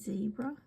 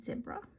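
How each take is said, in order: First: The word is said the American way. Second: The word is said the speaker's own way. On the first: "the Americans would say zebra" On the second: "but we say zebra"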